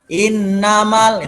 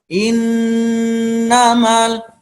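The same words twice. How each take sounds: First: The nasal hum is rushed and cut short. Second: The nasal hum is held fully and long. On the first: The speaker calls it wrong. "jangan innamal, itu belum sempurna" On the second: The speaker calls it right. "Ini juga innamal innamal"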